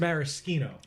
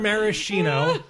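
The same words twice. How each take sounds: First: It uses the fancier, more refined-sounding pronunciation. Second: It uses the everyday, common pronunciation. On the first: It names the liqueur. "He's saying it the pretentious way" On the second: It names the cherries. "The cherries are maraschino"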